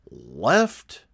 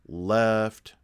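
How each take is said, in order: First: The word is said with a clear pitch inflection. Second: The word is said flat, without pitch inflection. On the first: The speaker calls it right. "there needs to be inflection of the first command" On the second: The speaker calls it wrong. "not just left"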